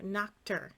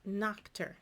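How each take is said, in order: No difference in how they are said.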